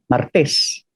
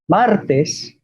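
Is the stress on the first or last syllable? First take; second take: last syllable; first syllable. First: The stress is on the last syllable. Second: The stress is on the first syllable. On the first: This is the Filipino pronunciation. "se han convertido a agudas" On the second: This is the Spanish pronunciation. "palabras llanas en español"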